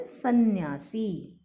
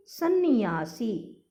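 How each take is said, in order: First: सन्यासी with n joined to y, "san-nyaa-see"; no i between n and y in सन्यासी; correct सन्यासी. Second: सन्यासी slowly split, "san-ni-yaa-see"; mispronounced सन्यासी. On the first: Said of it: "जबकि शुद्ध होता है". (सन्यासी में न्य मिलाकर) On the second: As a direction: add an i before y in सन्यासी. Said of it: "फिर से अशुद्ध और शुद्ध रूप". (सन्यासी में अतिरिक्त इ, "सन्नियासी") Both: Shown as a demonstration.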